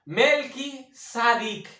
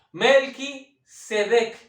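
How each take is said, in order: First: Slow "Melquisedec" said mel-ki-sa-dik, bringing out Sadik; "Melquisedec" spelled out slowly, ending on the letter sound sa-dik; Sadik inside the name. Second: Slow "Melquisedec" said the usual Spanish way, mel-ki-se-dek; "Melquisedec" in its standard Spanish form, carefully paced; usual Spanish name. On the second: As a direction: say "Melquisedec" slowly and cleanly, ending -dek. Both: Shown as a demonstration. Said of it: "está en el propio nombre de Melquisedec".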